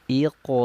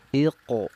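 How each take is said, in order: Both takes have the same delivery.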